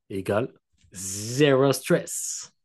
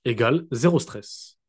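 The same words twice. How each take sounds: First: Slow, drawn-out "zéro stress" in a put-on English-German accent; accent anglais allemand exagéré; mock English-German accent. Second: Said in the usual way. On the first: Shown as a demonstration. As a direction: stretch it out like a German speaking English. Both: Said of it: "Avec mon accent anglais allemand".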